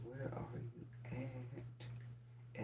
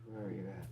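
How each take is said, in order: First: Drawn-out whisper. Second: Said in the usual way. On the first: Real, not acted. Host whispers slowly to absent commenter. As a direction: whisper it, stretched very slow.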